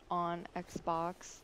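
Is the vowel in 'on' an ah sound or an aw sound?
aw. The vowel in 'on' is a rounded aw sound. This is how other people pronounce it. "I didn't say on Xbox"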